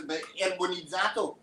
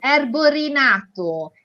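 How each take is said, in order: First: Erbonizzato said wrongly, Italian ending, unsure; erbonizzato, a garbled guess at the word; mispronounced word. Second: Erborinato said slowly, every syllable clear in Italian; correct Italian pronunciation. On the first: Retold or imitated. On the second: Shown as a demonstration. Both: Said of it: "I've never known what the word means".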